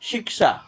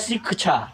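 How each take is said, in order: First: The middle cluster is a clear k plus sh. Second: The middle cluster lacks a clear k-plus-sh sound. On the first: The speaker calls it right. "क और मूर्धन्य ष से मिलकर बना हुआ है तो उसका उच्चारण भी वैसे ही करेंगे" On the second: The speaker calls it wrong. "कोई कहता है शिक्षा"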